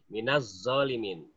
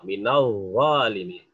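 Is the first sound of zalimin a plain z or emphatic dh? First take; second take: plain z; emphatic dh. First: It is said with a plain hissing z sound. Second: It is said with an emphatic dh sound. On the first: The speaker calls it wrong. "haknya huruf zai, zai" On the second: The speaker calls it right.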